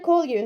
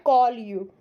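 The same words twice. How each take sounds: First: The k is released with a strong puff of air. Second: The k is released without a puff of air. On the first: The speaker calls it right. "C you have to pronounce as a K H" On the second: The speaker calls it wrong. "not call you"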